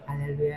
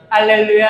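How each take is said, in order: First: It is said very quietly. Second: It is said loudly and high.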